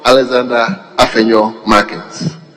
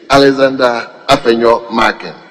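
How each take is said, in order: First: The name ends with an added s sound. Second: The name ends without any s sound. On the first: The speaker calls it wrong. "I was adding S to your name" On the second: The speaker calls it right. "marking without S"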